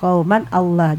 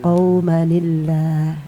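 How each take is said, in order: First: The two words are said without a linking ni. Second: The two words are joined by a linking ni. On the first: "Ini kauman ber- bertemu dengan alif lam" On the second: "tanwinnya hilang maka digantikan dengan nun iwat"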